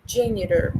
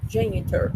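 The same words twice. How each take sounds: First: Janitor with the T tapped like an R. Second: Janitor with a distinct T; sounded T. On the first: Teacher giving own preferred American form, janitor with tapped R-like T. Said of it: "Justamente com esse som de R". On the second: Teacher offering pupils the audio's version, janitor with a clear T. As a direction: say janitor keeping the T as a real T. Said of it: "com esse som de T também". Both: Shown as a demonstration.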